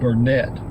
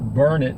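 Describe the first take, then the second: First: The name ends with a clear 'net' sound. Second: The name ends like 'learn it', sounding 'it'. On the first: This is how most outsiders say it. "Most people pronounce it Burnett, which is normal" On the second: This is how the locals say it. "in Burnet, Texas, they pronounce it Burnet... Darn it, can't you learn it?"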